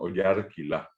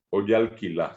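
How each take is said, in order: First: The word is said with an R sound. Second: The word is said with an L sound. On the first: The speaker calls it right. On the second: The speaker calls it wrong. "no decimos"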